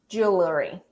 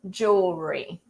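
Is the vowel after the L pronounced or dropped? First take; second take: pronounced; dropped. First: The vowel after the L is pronounced. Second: The vowel after the L is dropped. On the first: The speaker calls it wrong. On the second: The speaker calls it right. "It's like this letter E in the middle simply doesn't exist"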